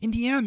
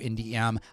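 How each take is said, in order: First: The name is said quickly, running together. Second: The name is said at a normal pace.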